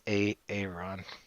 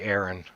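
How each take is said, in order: First: A separate 'A' sound is said before the name. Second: The name is said the ordinary way. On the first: "It's A Aaron" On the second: "I'll never say Aaron"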